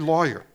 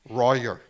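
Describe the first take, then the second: First: The word begins with a clear L sound. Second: The word begins with an R-like sound. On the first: The speaker calls it right. "Say lawyer" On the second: The speaker calls it wrong. "They can't make that kind of pronunciation"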